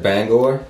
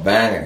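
First: "Bangor" with a full "gor" ending. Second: "Banger" with a reduced second syllable; local Maine "Banger". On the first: Shown as a demonstration. Visitor recalls being corrected, "Bangor" pronounced as spelt. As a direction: say "Bangor" as spelt, BANG-gore. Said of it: "I got corrected when I said". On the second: Retold or imitated. Quoting Mainers correcting a visitor, "Banger" with short ending. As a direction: say "Banger" as BANG-er, no "gore". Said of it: "That's the English way of pronouncing it".

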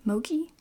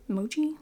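First: "Mochi" said MOH-kee with a hard k; "Mochi" with a k sound, questioning; pronunciation try. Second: "Mochi" said MOH-chee with a ch sound; "Mochi" with ch, questioning rise; pronunciation try. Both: Shown as a demonstration. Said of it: "Is it mochi?".

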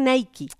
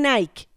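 First: "Nike" said as NAI-ki; two-syllable Nike. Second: "Nike" as English "nike" rhyming with bike; one-syllable Nike. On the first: Co-host contrasting today's brand name, "Nike" said as two syllables, naiki. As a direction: say "Nike" with a final ee sound. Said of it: "cuando estaba chama decían Nike". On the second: Co-host recalling her childhood, "Nike" said as one syllable, naik. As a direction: say "Nike" with the final e silent. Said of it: "No decían Nike". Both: Shown as a demonstration.

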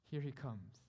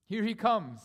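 First: Restrained, much softer announcement; hushed awe. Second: Loud, high proclamation; triumphant cry. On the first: Preacher first points the church to Christ arriving, hushed. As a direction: drop back from the shout. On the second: Preacher proclaims Christ's arrival to the church, triumphant. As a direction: ring it out to the whole church. Preacher repeats the announcement loudly. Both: Acted.

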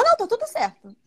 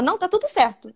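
First: High, insisting denial; imitating the bride insisting. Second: A hint of a bride's denial, slightly raised; lightly voiced bride. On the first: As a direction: pitch up the bride's stubborn "não". Noiva repete a negação. (imitando a noiva insistindo, voz aguda) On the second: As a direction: say it lightly, brushing it off. Primeira negação da noiva. (noiva negando, levemente mais aguda)

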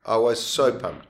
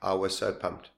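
First: Slower and emphatic on so; excited. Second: Said in the usual way. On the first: Shown as a demonstration. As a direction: punch the word so with excitement. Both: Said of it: "repeated with emphasis".

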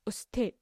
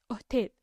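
First: Said in the usual way. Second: "أوتيد", usted with the s softened away; Costeño s-less "أوتيد"; dropped S. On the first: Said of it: "معنات". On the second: Shown as a demonstration. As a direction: leave out the s before the t in "أوتيد". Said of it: "ما ينطقون حرف الإس".

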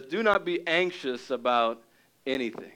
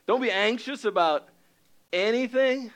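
First: Said in the usual way. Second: "Don't be anxious about anything" said higher, pressing on "Don't"; repeated with urgency. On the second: Shown as a demonstration. Preacher repeating Paul's command to his church, pitched higher. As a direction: lift it up as a plea, leaning on "Don't".

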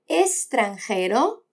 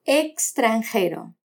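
First: Extranjero said slowly as estranjero. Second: Extranjero said slowly as ekstranjero; full ks sound. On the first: Teacher showing the s variant, extranjero as estranjero. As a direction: say extranjero with s instead of ks. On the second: Teacher showing the ks variant, extranjero as ekstranjero. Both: Shown as a demonstration. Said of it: "como extranjero o extranjero".

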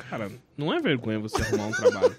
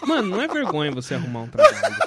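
First: Fast, lower imitating of a lecturing friend; lightly imitated stern advice; mock advice. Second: Fast laughing imitation of lecturing friend; mock lecturing friend; mock advice. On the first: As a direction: deliver it briskly, deadpan. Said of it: "ele falou". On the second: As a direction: rattle off the advice half laughing. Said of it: "Ele aqui".

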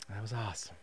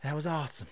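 First: Breathless whispered aside. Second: Said in the usual way. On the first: Retold or imitated. To himself after the workout, whispered. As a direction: barely voice it, spent.

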